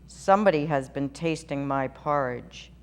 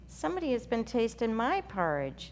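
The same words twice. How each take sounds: First: It is said in a big, deep voice. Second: It is said in a medium-pitched, middle voice. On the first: "in his great huge voice" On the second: "in her middle-sized voice"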